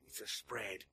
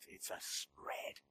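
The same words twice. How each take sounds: First: Said in the usual way. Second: Slow breathy whisper of spread. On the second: Shown as a demonstration. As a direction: hush it slowly.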